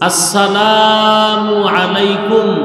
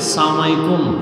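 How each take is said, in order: First: Every syllable of the greeting is pronounced fully. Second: The greeting is clipped into one slurred word. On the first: The speaker calls it right. "সালামটা শুদ্ধ করে বলতেও জানি না" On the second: The speaker calls it wrong. "সালাম দে স্টাইল করে"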